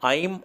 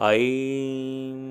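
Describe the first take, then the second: First: The word is said short and clipped. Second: The word is stretched and drawn out.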